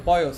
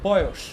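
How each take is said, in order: First: Put-on বয়স ending in a plain s, boyos; rejected s pronunciation. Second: Put-on বয়স ending in sh, boyosh; correct sh pronunciation. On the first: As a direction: say বয়স with final s instead of sh. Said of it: "আমরা কিন্তু বলি না যে". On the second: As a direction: say বয়স with final sh instead of s. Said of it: "আমরা বলি হচ্ছে". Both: Shown as a demonstration.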